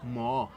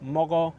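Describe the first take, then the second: First: The middle consonant is dropped, leaving one syllable. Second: The middle consonant is pronounced between the vowels. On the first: This is the Maninka form. "they'll normally say mo. So they'll drop it entirely" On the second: This is the Bambara form. "Bambara speakers will say mogo"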